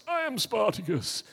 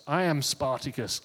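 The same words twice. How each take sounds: First: "I am Spartacus" lifted higher, like a second voice; higher echo. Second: Said in the usual way. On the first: Retold or imitated. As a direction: echo it up high as another man. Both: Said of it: "So you think about Spartacus".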